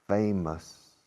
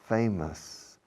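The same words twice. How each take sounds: No difference in how they are said.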